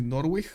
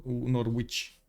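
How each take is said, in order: First: First Norwich as "NOR-wik", W sounded; Norwich with K ending. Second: Second Norwich as "NOR-witch", W sounded; Norwich with CH ending. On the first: Streamer asking which is right, Norwich as "NOR-wik". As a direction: close Norwich on a hard "k". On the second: Streamer asking which is right, Norwich as "NOR-witch". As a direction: close Norwich on a clear "tch". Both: Shown as a demonstration. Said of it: "How do you pronounce this?".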